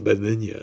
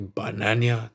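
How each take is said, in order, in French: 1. Il est prononcé avec un accent français standard et fluide. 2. Il est prononcé avec un accent africain exagéré. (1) "la nouvelle pub de Banania" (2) "Alors qu'avant, c'était Banania, tu vois, c'était mieux"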